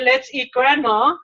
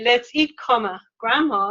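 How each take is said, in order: First: It runs straight on with no pause before grandma. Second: There is a clear break before grandma. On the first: Grandma is the thing being eaten. The speaker calls it wrong. "if you say, let's eat grandma" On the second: Grandma is being called to come and eat. The speaker calls it right. "let's eat, comma, grandma, it's like, come on, grandma, we're hungry"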